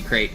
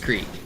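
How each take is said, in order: First: The word sounds like 'crate'. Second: The word sounds like 'Crete'. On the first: This is the pronunciation learned from a song. "it will always be crate in my mind" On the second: This is the accepted pronunciation. "I know it's Crete"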